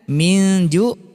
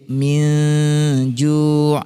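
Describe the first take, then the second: First: The nasal hum is short and not held. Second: The nasal hum is held for several beats.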